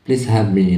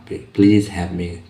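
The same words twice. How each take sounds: First: Said in the usual way. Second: Very slow, word by word; slow classroom demo; slow model phrase. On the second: Shown as a demonstration. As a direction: spell it out slowly for learners. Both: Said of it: "Tambah kata please di awalnya itu".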